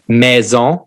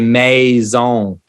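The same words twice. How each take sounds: First: The pitch rises and stops high. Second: The pitch rises and then falls. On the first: "the French will go up and stop" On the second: "we'll go up and down in our in our in our tone"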